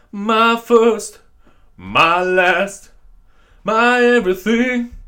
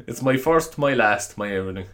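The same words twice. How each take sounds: First: High, slow crooning put-on voice. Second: Said in the usual way. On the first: Podcaster sings the line to his listeners, hammed-up crooner. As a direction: croon it slowly like a hammed-up soul singer.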